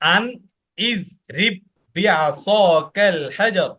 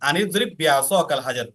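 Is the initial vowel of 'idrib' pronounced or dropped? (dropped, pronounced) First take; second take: pronounced; dropped. First: The vowel starting the second word is pronounced separately. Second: The words are joined and that vowel is dropped. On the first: This is the original form of the words. "এটা মূলত ছিল" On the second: This is how it is read when the words are joined. "একসাথে মিলিয়ে পড়তে গেলে তখন আলিফটা বাদ হয়ে যায়"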